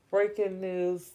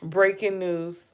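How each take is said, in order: First: Said in the usual way. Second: Slow, announcing headline tone; news announcer. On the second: Pretend. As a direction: read it like a news anchor.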